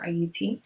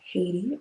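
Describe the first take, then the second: First: The word starts without any H sound. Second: The word starts with an audible H sound.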